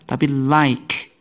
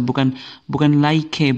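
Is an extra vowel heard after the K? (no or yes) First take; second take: no; yes. First: The word ends on the K sound. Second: An extra vowel is pronounced after the K. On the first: The speaker calls it right. "E-nya tidak dibaca" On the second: The speaker calls it wrong.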